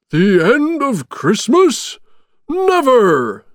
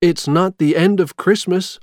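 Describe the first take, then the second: First: High, loud, drawn-out indignant shout; slow, emphatic Santa bellow. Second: Said in the usual way. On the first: A narrator's reading. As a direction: cry out in outraged disbelief. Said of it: "shouted Santa". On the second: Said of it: "Jack said".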